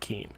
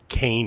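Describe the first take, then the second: First: The name rhymes with 'keen'. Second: The name rhymes with 'cane'. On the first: The speaker calls it wrong. "not Keene" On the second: The speaker calls it right. "the only thing I know about Kane University"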